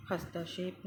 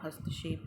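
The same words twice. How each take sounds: First: "हस्तक्षेप" as has-taa-kshep; wrong-form demo, long middle vowel in "हस्तक्षेप"; mispronounced long vowel. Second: Said in the usual way. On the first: Shown as a demonstration. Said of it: "नहीं होता". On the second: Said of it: "होता है".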